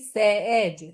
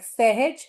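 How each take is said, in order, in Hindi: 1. बीच में h की ध्वनि छोड़ दी जाती है। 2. बीच में h की ध्वनि सुनाई देती है। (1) "that will be सहज they are going to delete the h sound" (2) "like सहज"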